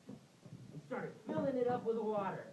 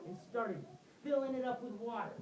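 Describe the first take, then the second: No difference in how they are said.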